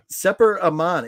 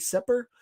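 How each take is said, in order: First: Sepper Aman read out carefully, stress on Sepper; first go at saying Sepper Aman; trying out a name. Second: Sepper asked back much higher, with a rising question; checking whether Sepper is right; unsure pronunciation check. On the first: Streamer tries out a viewer's name, careful first reading. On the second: Streamer checks a viewer's name, unsure high rising question. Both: Shown as a demonstration. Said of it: "am I pronouncing that right?".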